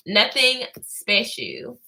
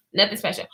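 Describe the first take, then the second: First: Drawn out slowly with a lifting end; slow dismissive. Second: Said in the usual way. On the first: Shown as a demonstration. To Sequoia, shrugging it off slowly. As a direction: stretch it out, unimpressed.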